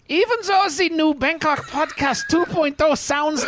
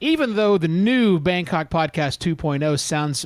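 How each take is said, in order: First: It is read in a put-on German accent. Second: It is read in the speaker's normal accent.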